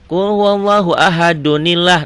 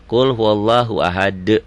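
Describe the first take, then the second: First: The final d flows into the next word. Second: It stops on a bounced, echoing final d. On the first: "Disambung nggak ada kol-kolahnya" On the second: "Kalau dimatikan"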